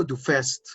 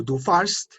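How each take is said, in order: First: "du fährst" with ä said as an e sound, "fest"; teacher gives the correct "du fährst", ä like e; umlaut form. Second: "du fahrst" with a plain a, the wrong form; teacher shows the form not to use, "du fahrst" with a. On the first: Teacher to class: correct "du fährst", ä as e. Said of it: "sino que digo". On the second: Teacher to class: "du fahrst" said with an open a, as the wrong form. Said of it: "ya no digo". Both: Shown as a demonstration.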